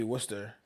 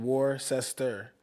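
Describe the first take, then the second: First: "Worcester" in two quick syllables, WUSS-ter; correct pronunciation. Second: "Worcester" sounded out slowly, WOR - SES - TER; wrong pronunciation. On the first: Co-host showing the proper local pronunciation. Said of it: "It should just be". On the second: Co-host showing what not to say, mispronounced. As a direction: break "Worcester" into three slow syllables, WOR-SES-TER. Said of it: "you shouldn't be saying". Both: Shown as a demonstration.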